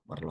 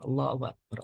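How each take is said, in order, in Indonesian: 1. Diucapkan dengan cepat dan terpotong menjadi dua suku kata. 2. Diucapkan dengan lambat, setiap suku katanya jelas. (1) "Kalau buru-buru lokbar" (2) "pelan-pelan sehingga kalimat yang terucap pun sempurna"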